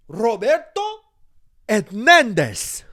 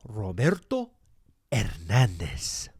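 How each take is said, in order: First: Yelled much higher and louder in a rolling Spanish accent, Hernandez stretched slow. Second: Roberto Hernandez rolled in full Spanish, Hernandez drawn out slow; Spanish pronunciation. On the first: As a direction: belt out Roberto Hernandez like a mariachi. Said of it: "I say it like that, really loud". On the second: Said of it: "that's how I say my name". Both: Shown as a demonstration.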